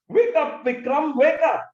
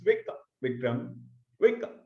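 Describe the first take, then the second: First: The words are said in an angry tone. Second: The words are said in a choked voice. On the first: A sleeping child is scolded to get up. "But it was an angry tone" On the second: A grieving parent pleads for recovery. "Now, a choked voice"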